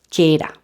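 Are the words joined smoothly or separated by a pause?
joined. The two words run together without a break. The speaker calls it right.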